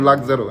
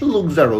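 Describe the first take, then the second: First: The first vowel sounds like the 'u' in luck. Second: The first vowel sounds like the 'oo' in look. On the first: The speaker calls it right. "না কিন্তু লাক্সারো" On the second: The speaker calls it wrong. "লুকজারো না"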